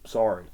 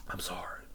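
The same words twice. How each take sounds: First: Said in the usual way. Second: Breathy whispered I'm sorry. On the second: Real, not acted. Host fake-apologizing to his friend, in a whisper. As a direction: whisper the apology half-mockingly.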